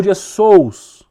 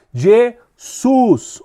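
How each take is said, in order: First: "Jesus" dito como "Djessous", bem alongado; pronúncia com "sous". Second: "Jesus" com "sus" no final; pronúncia usual. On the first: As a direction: termine "Jesus" em ditongo, "sous", mais forte. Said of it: "ou Jesus". ("Jesus" lento e alto, soando "Dje-sous") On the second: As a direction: diga "Jesus" terminando em U simples. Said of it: "adivinha só outro nome". ("Jesus" enfático, com final em "sus") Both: Shown as a demonstration.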